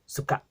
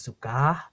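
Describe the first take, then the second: First: The final vowel is cut off by a glottal stop. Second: The final vowel ends openly without a catch. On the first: The speaker calls it right. "You cut off that air at the end" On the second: The speaker calls it wrong. "Instead of saying suka"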